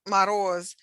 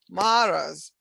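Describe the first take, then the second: First: The stress falls on its usual syllable. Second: The stress is moved to another syllable. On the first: The speaker calls it right. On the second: The speaker calls it wrong.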